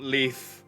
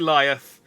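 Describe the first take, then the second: First: The name is said with one syllable. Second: The name is said with two syllables. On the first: The speaker calls it wrong. "and not Leith" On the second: The speaker calls it right. "It was probably Liath"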